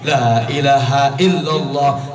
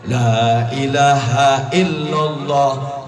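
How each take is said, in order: First: The phrase is said very fast and hurried. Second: The phrase is said at a quicker pace. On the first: The recitation is rushing at top speed. "Masuk gigi tiga" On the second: The recitation is picking up speed. "Masuk gigi dua"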